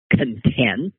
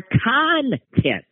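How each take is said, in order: First: "content" as the adjective, con-TENT; second-syllable stress. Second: "content" drawn out as CON-tent, high on CON; first-syllable stress. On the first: Explaining syllable stress to listeners, "content" stressed on TENT. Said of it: "syllable stress can change". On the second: Contrasting noun with adjective, "content" stressed on CON. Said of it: "that's a noun". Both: Shown as a demonstration.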